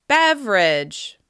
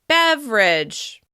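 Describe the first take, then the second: Both takes have the same delivery.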